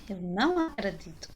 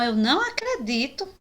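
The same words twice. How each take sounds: First: Falling statement tune, a bit softer; flat falling "não", firm denial; falling negation. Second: Rising question tune on não; questioning intonation. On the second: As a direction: ask "Eu não acredito" with a rise on não. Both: Shown as a demonstration. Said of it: "marcamos nossa negação com a entonação da voz".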